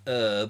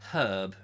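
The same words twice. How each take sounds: First: The H is silent, American style. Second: The H is pronounced, English style.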